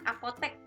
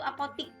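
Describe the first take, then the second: First: The last syllable is said with an e vowel. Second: The last syllable is said with an i vowel. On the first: This is the standard form. The speaker calls it right. "apotek bakunya itu" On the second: This is the non-standard everyday form. The speaker calls it wrong. "Yang tidak bakunya itu apotik, itu tidak baku"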